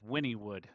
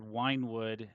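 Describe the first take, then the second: First: The first part sounds like 'winnie', two syllables. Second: The first part sounds like 'wine', one syllable. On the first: The speaker calls it right. "he or she corrected me" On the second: The speaker calls it wrong. "I said Winewood"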